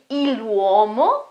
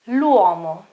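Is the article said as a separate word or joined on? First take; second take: separate; joined. First: The article is a separate syllable before the noun. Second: The article is joined onto the noun as one word. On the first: The speaker calls it wrong. "I won't say il uomo, I can't say that" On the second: The speaker calls it right. "You pronounce it all together, as if it was just one word"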